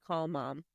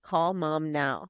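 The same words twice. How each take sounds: First: Very soft, faint request from the floor; retold feeble plea, barely voiced; weakly pleading. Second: Slow, weighted repeat of the request; mildly insistent, drawing out each word; insistent retold demand. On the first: Hungover sister lying on the shower floor, weakly pleading. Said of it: "just laying on the shower floor". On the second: Hungover woman asking her sister once more, insistent.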